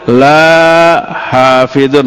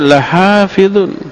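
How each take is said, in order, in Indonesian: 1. Vokal pertama 'la' dibaca panjang. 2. Vokal pertama 'la' dibaca pendek. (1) "Jadi begitu kalau dibacanya panjang" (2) "Ada la pendek"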